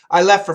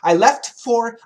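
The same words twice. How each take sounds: First: The T in 'left' is dropped. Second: The T in 'left' is pronounced. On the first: "we cancel the T. And we say" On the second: "we got F T F. Very difficult to say quickly"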